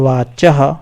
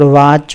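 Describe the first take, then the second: First: The word ends with a breathy echo. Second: The word ends without a breathy echo. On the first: The speaker calls it right. "चह ये विसर्ग है ना, तो इसको इसी तरह से बोलते हैं चह" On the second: The speaker calls it wrong. "वाच भी नहीं बोलना है इसको"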